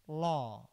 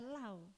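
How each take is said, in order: First: The word has the accepted English pronunciation. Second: The word is sounded out as spelled in Indonesian. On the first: It means law. The speaker calls it right. "Hukum itu kan bacaannya law" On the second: It no longer means law. The speaker calls it wrong. "Jadi tidak dibaca law"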